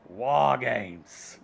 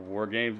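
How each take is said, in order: First: The R in 'War' is dropped, British-style. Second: The R in 'War' is clearly pronounced.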